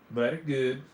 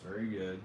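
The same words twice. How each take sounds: First: "Very" said as "vairy", European style; continental european accent. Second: Said in the usual way. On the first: Pretend. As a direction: put a European accent on "Very good". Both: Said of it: "talks in a European accent".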